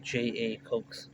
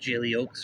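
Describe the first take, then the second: First: The name starts with two separate spoken letters. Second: The name is said as one blended word. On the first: The speaker calls it right. "but it's a J A Cokes" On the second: The speaker calls it wrong. "There's a lot of people that pronounce it uh"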